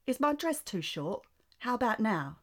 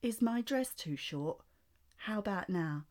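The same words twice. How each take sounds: First: High, loud posh British voice; [name] impression. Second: Slow, drawn-out posh British voice; slower [name] impression. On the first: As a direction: play a pouty posh British pop star. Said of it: "I can do a [name] impression". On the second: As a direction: stretch the posh British pout out slowly. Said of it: "do it again, but slower".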